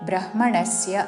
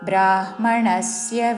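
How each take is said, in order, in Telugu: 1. మొదటి అచ్చు హ్రస్వం. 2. మొదటి అచ్చు దీర్ఘం. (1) "బ్రహ్మణస్య అనకూడదు" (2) "బ్రా దీర్ఘముతో"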